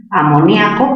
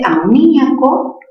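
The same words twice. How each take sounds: First: Amoníaco with nia as one stressed syllable; diphthong ia. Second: Amoníaco with stressed í split from the a. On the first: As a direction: say Amoníaco as a-mo-NYA-co. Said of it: "palabra grave". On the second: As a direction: break amoníaco as a-mo-NÍ-a-co. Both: Shown as a demonstration.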